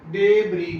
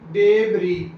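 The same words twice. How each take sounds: Both takes have the same delivery.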